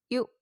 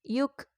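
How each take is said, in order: First: The syllable ends cleanly without a trailing sound. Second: The syllable ends with a trailing tail sound. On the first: The speaker calls it right. "cara bacanya tidak berekor" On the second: The speaker calls it wrong. "Jangan yuk atau yuk. Salah"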